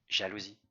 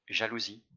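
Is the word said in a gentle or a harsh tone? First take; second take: gentle; gentle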